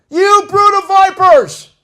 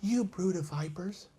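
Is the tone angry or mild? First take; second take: angry; mild. First: It is shouted with angry, passionate force. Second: It is said softly, without anger.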